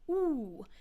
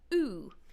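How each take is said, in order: First: The vowel is made far back in the mouth. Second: The vowel is made further forward in the mouth. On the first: This is how it sounded in older recordings. "which before was produced much further back in the mouth" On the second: This is how it sounds now. "whereas now it's further forward"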